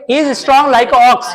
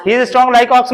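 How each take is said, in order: First: Slow, word-by-word reading of "He is strong like ox" with "strong" leaned on; slow dictation read. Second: Said in the usual way. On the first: Shown as a demonstration. Teacher reading the sentence slowly to the class, deliberate dictation. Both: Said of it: "क्या लगाओगे?".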